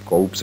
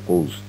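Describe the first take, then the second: First: The word ends with an audible p sound. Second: The word is said with no p sound. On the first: The speaker calls it wrong. "इसमें कौप्स नहीं कहना है इसको" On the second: The speaker calls it right. "पी नहीं silent होती"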